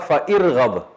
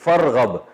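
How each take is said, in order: First: A separate vowel is heard before 'rghab'. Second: The vowel drops and 'fa' joins 'rghab'. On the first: "असल में था" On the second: "तो साइलेंट हो गया अलिफ"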